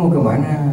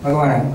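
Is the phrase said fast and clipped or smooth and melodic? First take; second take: melodic; fast. First: It is said smoothly with a melodic tune. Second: It is said quickly with a clipped rhythm. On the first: This is how people from Bugis say it. "Bugis lebih lebih melodius, ... lebih halus" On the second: This is how people from Makassar say it. "Kalau di Makassar itu lebih cepat"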